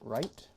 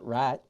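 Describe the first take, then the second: First: It is said in a standard accent. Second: It is said in a Southern drawl.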